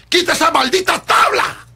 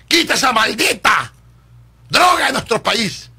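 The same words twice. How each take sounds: First: Much higher, loud "Quita esa maldita tabla" with a rise; escalating outraged demand; rising shout. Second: Furious plea against drugs; shouted demand. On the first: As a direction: push it even higher. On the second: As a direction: hammer each word at the president. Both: Real, not acted.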